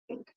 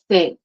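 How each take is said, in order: First: The th is a quick light tap. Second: The th is strongly exaggerated. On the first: "really like a little tap" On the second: "It's not always dramatic, like"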